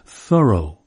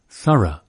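First: It is said with a non-British pronunciation. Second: It is said with a British pronunciation.

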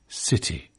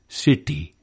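First: The t is aspirated with a breathy puff. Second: The t is unaspirated with the tongue curled back. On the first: "It's aspirated, whispered, in British English" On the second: "unaspirated and retroflex in Indian city"

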